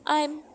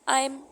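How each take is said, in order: First: The two words are said separately. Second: The two words are merged into one. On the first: "दो अलग अलग लफ्ज हैं" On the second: "इन दोनों को मिला दिया है"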